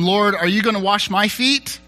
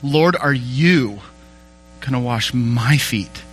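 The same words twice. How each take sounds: First: The pronouns carry no special emphasis. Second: The pronouns 'you' and 'my' are emphasized.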